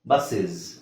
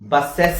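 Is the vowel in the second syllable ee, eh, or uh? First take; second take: uh; eh. First: The second syllable has a short uh vowel. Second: The second syllable has a clear eh vowel. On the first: The speaker calls it right. "ಇದನ್ನ ಹೆಂಗೆ ಹೇಳ್ತೀವಿ ಗೊತ್ತಾ" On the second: The speaker calls it wrong. "ಬಸ್ಸೆಸ್ ಅಂತ ಹೇಳಂಗಿಲ್ಲ"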